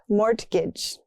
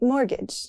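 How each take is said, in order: First: The T sound is pronounced in the middle. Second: The T sound is left out entirely. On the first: The speaker calls it wrong. "not mortgage" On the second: The speaker calls it right. "That T is silent"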